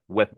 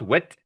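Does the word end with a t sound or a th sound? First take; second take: th; t. First: The word ends with a soft th sound. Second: The word ends with a hard t sound. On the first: The speaker calls it right. "it's a th sound" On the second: The speaker calls it wrong. "It's not wit"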